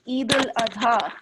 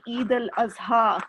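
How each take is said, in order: First: "Eid al-Adha" with the Arabic D sound; Arabic pronunciation. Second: "Eid al-Azha" with a Z for the D; Pakistani pronunciation. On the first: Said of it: "in Arabic pronunciation, it's the D". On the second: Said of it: "we pronounce the D as a Z". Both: Shown as a demonstration.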